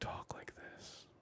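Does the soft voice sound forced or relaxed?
relaxed. The soft voice sounds easy and relaxed.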